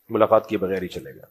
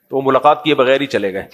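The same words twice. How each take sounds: First: Softer, lower rueful echo of ملاقات کیے بغیر ہی چلے گئے; quiet lower repeat. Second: Said in the usual way. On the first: Real, not acted. Quiet repeat of previous line.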